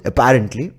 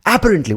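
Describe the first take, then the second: First: Said in the usual way. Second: Apparently stressed high and loud on the first syllable; Indian mispronunciation. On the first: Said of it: "how many of you would say it". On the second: Shown as a demonstration. Showing our own version, Apparently as AA-parently. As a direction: punch the front, AA-parently. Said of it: "when we mispronounce it".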